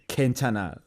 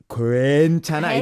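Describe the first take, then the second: First: The word is said lightly with reduced, blended vowels. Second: Every letter is sounded out fully and emphatically. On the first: The speaker calls it right. "you don't have to emphasize that much. You say" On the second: The speaker calls it wrong. "if you read it, that actually is"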